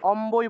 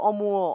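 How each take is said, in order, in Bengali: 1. নাসিক্য ধ্বনির পরে স্পষ্ট 'ব' ধ্বনি আসে। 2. নাসিক্য ধ্বনির পরে ওয়-ধাঁচের স্বরধ্বনি আসে। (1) "অমুও না বলে আমরা অম্বই বলতে হবে" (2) "মুও উচ্চারণ করার কথা ছিল"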